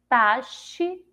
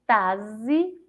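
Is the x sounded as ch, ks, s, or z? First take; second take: ch; z. First: The x is sounded as sh. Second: The x is sounded as a z. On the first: "Com som de C H" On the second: "Se eu for ler com som de Z"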